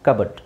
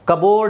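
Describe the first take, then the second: First: The second syllable sounds like 'bud'. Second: The second syllable sounds like 'board'. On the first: The speaker calls it right. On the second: The speaker calls it wrong. "ಕಬೋರ್ಡ್ ಅಲ್ಲ"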